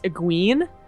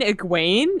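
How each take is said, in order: First: The name is sounded out from its spelling. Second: The name is said in its usual form. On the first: The speaker calls it wrong. "I thought E G W E N E would be pronounced Egwene" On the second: The speaker calls it right. "they're like, "Do you mean Egwene?""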